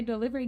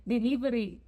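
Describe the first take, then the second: First: Said in the usual way. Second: Put-on "delivery" in a Spanish accent, with tapped r; "delivery" with Spanish vowels and a tapped r, not English. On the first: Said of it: "Because you can't say delivery". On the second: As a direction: say "delivery" as a Spanish word, light quick consonants. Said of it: "say it with the accent".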